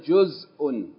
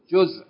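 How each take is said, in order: First: The word ends with an extra -un ending. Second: The word ends on its final consonant. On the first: "I only pronounced it with the vowel alternately" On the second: "normally if you say the word by itself, you don't pronounce this vowel"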